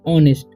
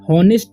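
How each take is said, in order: First: The word begins with a vowel sound. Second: The word begins with an h sound. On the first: The speaker calls it right. "H का उच्चारण यहाँ पर नहीं होगा" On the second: The speaker calls it wrong. "इसे हॉनेस्ट नहीं पढ़ना है"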